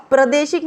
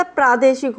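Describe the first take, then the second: First: प्रादेशिक with a short first a: pra-de-shik; wrong pronunciation. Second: प्रादेशिक with a long first aa: praa-de-shik; correct pronunciation. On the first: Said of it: "प्रादेशिक नहीं होता". (प्रादेशिक को "प्रदेशिक" जैसा बोलें) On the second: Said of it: "प्रादेशिक होता है". (प्रादेशिक में "प्रा" लंबा बोलें) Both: Shown as a demonstration.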